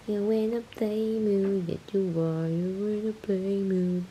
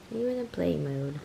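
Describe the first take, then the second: First: Slow singsong pet voice. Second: Said in the usual way. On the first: Real, not acted. Owner asking kitten if it wants to play, singsong. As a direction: drawl it sweetly at the kitten.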